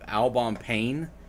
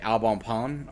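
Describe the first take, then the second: First: The last word is said like English 'pain'. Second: The last word is said more like 'pan'. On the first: "it's called Albon Albon Pain" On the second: "I guess you say it Albon Pan"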